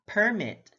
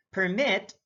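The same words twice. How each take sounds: First: PERmit, first syllable stressed; careful demo of PERmit. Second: PerMIT, second syllable stressed; careful demo of perMIT. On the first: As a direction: say "permit" with the weight on PER. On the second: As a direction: say "permit" with the weight on MIT. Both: Shown as a demonstration. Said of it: "stress is the verbal emphasis used".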